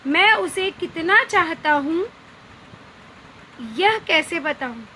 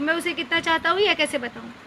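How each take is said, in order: First: There is a longer pause after the first clause. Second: The two clauses run together without a pause. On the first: The speaker calls it right. "अब यहाँ पे हम थोड़ा अधिक रुक रहे हैं" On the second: The speaker calls it wrong. "अब आप इसे ऐसे नहीं कह सकते"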